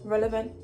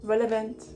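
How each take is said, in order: First: The word begins with the sounds r-e-l. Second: The word begins with the sounds r-e-l.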